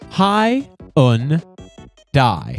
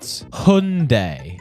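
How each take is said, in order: First: The last syllable sounds like 'die'. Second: The last syllable does not sound like 'die'. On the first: The speaker calls it right. "Notice how it's spelled Hy-un. Die" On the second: The speaker calls it wrong. "not Hyundai"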